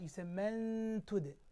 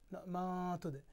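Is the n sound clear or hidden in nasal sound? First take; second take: hidden; clear. First: The n is hidden in a nasal sound. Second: The n is pronounced fully and clearly. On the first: The speaker calls it right. "And also in ikhfa, you say" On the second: The speaker calls it wrong.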